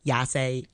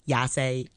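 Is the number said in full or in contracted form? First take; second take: contracted; contracted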